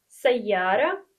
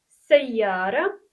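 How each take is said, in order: Both takes have the same delivery.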